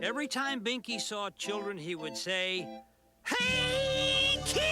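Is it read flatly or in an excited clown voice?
clown voice. It is read in an excited clown voice.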